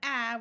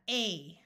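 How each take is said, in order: First: The vowel is the short a sound. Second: The vowel is the long a sound. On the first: "instead of A" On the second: "change this vowel to the long sound"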